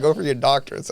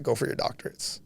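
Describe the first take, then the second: First: Said in the usual way. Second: Softer, barely-there dying father; weak dying words. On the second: Retold or imitated. Son recalls his dying father's last words, faint and fading. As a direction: let the words slip out faintly, like a last breath.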